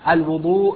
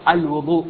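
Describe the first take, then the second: Both takes have the same delivery.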